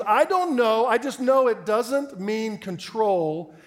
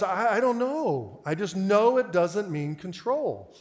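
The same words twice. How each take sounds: First: Loud, high, very drawn-out protest; stubborn outburst, stretching each word; emphatic insistence. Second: Slow, stammered start, drawn-out words; haltingly stubborn, stretched out; hesitant insistence. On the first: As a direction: imitate an exasperated caller refusing to budge. Retold caller insists more forcefully. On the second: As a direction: imitate an unsure caller digging in. Retold caller hesitates, then insists. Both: Retold or imitated.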